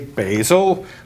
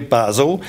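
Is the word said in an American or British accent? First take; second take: American; British. First: It is said in an American accent. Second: It is said in a British accent.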